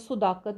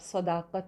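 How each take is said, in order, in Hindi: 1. पहला स्वर u की ध्वनि है। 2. पहला स्वर a की ध्वनि है। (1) "कोई अगर सुदाकत बोल दे ... तो वो उसकी गलती है" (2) "सदा ऐसे ही आएगा ना"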